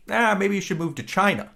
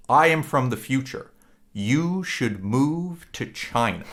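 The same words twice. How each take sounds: First: Higher, breezy throwaway line; offhand boss suggestion. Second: Slow, grave, weighted delivery; dead serious warning. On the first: Future boss brushing off a quitting employee, lightly voiced and higher. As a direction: toss it off lightly like a boss shrugging. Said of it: "And Jeff Daniels goes". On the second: Boss from the future warning his employee, slow and grave. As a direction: lean in and say it like a forbidden secret. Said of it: "a very serious moment". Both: Retold or imitated.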